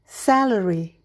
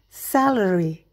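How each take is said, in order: No difference in how they are said.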